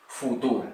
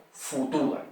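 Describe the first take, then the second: No difference in how they are said.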